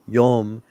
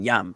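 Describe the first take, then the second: First: The vowel sounds close to an oh. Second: The vowel sounds like an open ah.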